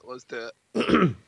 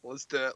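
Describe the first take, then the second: First: Stretched slow hype; slow, drawn out. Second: Said in the usual way. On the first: Shown as a demonstration. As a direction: drag the words out slowly.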